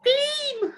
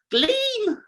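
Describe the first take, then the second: First: "Gleam!" in a very high squeaky voice; high squeal again. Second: "Gleam!" yelped in a very high voice; high squeal. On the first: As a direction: go all the way up on "Gleam!". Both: Shown as a demonstration. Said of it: "Never get that right".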